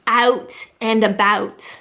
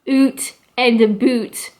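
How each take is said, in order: First: The vowel in about has an ah sound. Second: The vowel in about has an oo sound. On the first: The speaker calls it right. "more of an A sound" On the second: The speaker calls it wrong. "not oot and a boot. That sounds like French almost"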